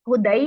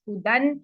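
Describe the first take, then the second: First: The word ends with an ai sound. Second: The word ends with a final n sound. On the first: "हुदई नहीं पढ़ देना इसको किसी ने भी" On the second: "ये सारे फतहा तनवीन पर एंड हो रहे हैं"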